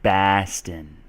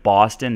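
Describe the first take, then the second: First: The first vowel sounds like an A. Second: The first vowel sounds like an O. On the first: "they say Baston ... an O becomes more of an A" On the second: "instead of Boston"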